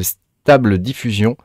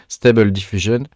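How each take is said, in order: First: Said in the usual way. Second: Stable Diffusion in clumsy French-accented English; bad English accent. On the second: Shown as a demonstration. Vlogger showing viewers an AI tool, Stable Diffusion in rotten English accent. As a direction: attempt English "STAY-bel dif-YOO-zhun" for Stable Diffusion, French accent showing. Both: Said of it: "avec mon super accent bien pourri".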